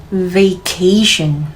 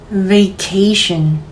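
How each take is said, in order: The two takes are said the same way.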